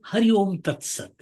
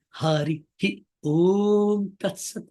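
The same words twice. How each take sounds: First: The opening vowel is short and quick. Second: The opening vowel is long and drawn out. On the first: The speaker calls it wrong. "We don't say" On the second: The speaker calls it right. "We say"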